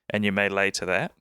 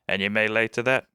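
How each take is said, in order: First: It is said in a New Zealand accent. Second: It is said in a pirate accent. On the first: The speaker calls it wrong. "in the Kiwi accent, that doesn't sound great" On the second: The speaker calls it right. "in the pirate accent"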